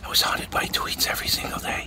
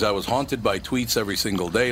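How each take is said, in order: First: It is spoken in a whisper. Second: It is spoken in a normal voice.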